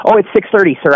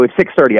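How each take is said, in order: First: Friendly, higher and courteous; the nice way to answer a stranger asking the time; polite and nice. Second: Short and abrupt, lower; curt. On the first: Shown as a demonstration. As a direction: say the time kindly, with a polite sir. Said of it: "I could go". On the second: Retold or imitated. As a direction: brush off the stranger with a clipped answer. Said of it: "I was kind of abrupt".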